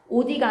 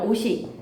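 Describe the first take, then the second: First: The middle consonant sounds like a d. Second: The middle consonant sounds like an s. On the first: The speaker calls it wrong. "오디가 아니라" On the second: The speaker calls it right. "아니라 오시"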